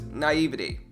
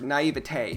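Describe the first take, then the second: First: The word is said in a plain, easy way. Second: The word is said in a fancy, snooty way. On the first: "I just rather say naivety because it's easier" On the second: "Naivete sounds snooty"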